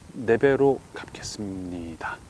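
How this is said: It sounds grudging and calculating, reluctant to give. The giver regrets losing the money. The speaker calls it wrong. "이렇게 아까워하면서 또 머릿속으로 계산하면서"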